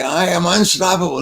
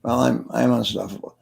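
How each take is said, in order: First: Raised, emphatic crowd chant; with conviction. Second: Half-hearted. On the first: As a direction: declare it like you believe it. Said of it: "say it like you believe it". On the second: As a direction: say it without believing it, like an unsure audience member. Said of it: "Don't suck your thumb". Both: Retold or imitated.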